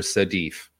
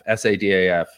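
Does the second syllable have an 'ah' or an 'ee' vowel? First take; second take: ee; ah. First: The second syllable has an 'ee'-like vowel. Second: The second syllable has an open 'ah' vowel. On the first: The speaker calls it wrong. "everyone calls her Sadif. There are no E's in her name at all" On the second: The speaker calls it right. "Her name's Sadaf"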